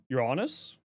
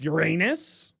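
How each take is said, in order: First: The word ends sounding like onus. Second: The word ends sounding like anus. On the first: The speaker calls it right. "Because that's how it's pronounced. ... it's onus" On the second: The speaker calls it wrong. "Everyone thinks it's Uranus ... So it's not anus"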